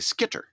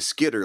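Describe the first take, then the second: First: The middle consonant is a crisp, hard T. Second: The middle consonant is a soft D sound. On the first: It makes the spelling clear to listeners. "I want to say it in such a way that somebody makes sure that they get the right spelling" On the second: It is casual everyday speech. "If I'm just talking, I'd probably say Skitter like somebody from the UP"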